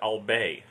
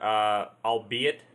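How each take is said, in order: First: The word ends with a 'bay' sound. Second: The word ends with an 'it' sound.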